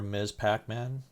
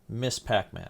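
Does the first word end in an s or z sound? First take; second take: z sound; s sound. First: The first word ends with a z sound. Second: The first word ends with an s sound.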